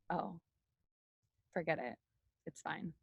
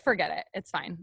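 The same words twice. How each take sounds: First: Very quiet, low acted sulk; mock hurt withdrawal. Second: Said in the usual way. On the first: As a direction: play wounded, shrinking away with long pauses. Acts hurt shutdown, then says kidding. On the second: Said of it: "No, I'm just kidding".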